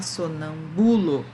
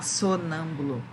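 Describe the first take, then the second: First: Sonâmbulo wrongly stressed on the third syllable, sonam-BU-lo. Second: Sonâmbulo wrongly stressed on the first syllable, SO-nambulo. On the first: Teacher showing how not to say it, sonam-BU-lo with stress on BU. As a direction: lean hard on the BU of sonâmbulo. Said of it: "a gente não pode falar". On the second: Teacher showing how not to say it, SO-nambulo with first-syllable stress. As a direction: punch the SO of sonâmbulo. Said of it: "A gente não pode falar". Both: Shown as a demonstration.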